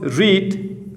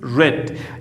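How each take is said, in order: First: The vowel is long, like in 'reed'. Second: The vowel is short, like in 'red'. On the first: The speaker calls it wrong. "you will have not read" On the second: The speaker calls it right. "changes in pronunciation"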